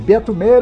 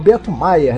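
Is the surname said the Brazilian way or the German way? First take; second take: Brazilian; German. First: The surname is said the local Brazilian way. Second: The surname is said the German way. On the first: This is how people usually say the name. The speaker calls it wrong. "as pessoas sempre tenham te tratado como Meyer mesmo" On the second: This follows the family's German origin. The speaker calls it right. "o certo mesmo, no fundo, seria Maier, pela ascendência alemã"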